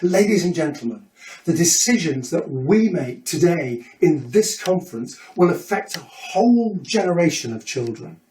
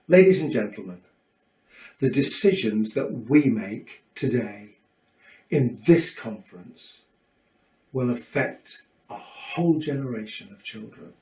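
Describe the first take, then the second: First: It is fast, animated and energetic. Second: It is slow, calm and measured.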